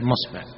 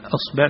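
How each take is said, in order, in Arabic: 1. تبدأ الكلمة بصوت الميم. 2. تبدأ الكلمة بهمزة القطع. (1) "أصبع تصير مصبع، هذا في لغة تميم" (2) "الهمزة تقلبها ميم"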